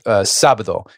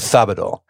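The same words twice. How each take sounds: First: The s sound is a plain hissing s. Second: The s sound is lisped like th. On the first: "instead of saying like" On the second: "in Spain, they speak with like a lisp"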